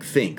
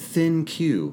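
First: It is one syllable ending in a K sound. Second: It is two syllables ending in a cue sound. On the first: It is meant as the word think. The speaker calls it right. "My thought is that they meant for it to be the word think" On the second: It is treated as two separate words. The speaker calls it wrong. "they're pronouncing it thin Q, which makes zero sense to me"

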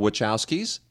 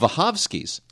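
First: The name is pronounced the Americanized way. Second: The name is pronounced the Polish way. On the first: The speaker calls it wrong. "We call them the Wachowskis. No" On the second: The speaker calls it right. "He says it's pronounced Wachowski"

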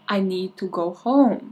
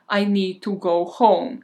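First: The words are slurred like a drunk person. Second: The words are clear like a sober person. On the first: "in her drunken voice" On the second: "in a completely sober voice"

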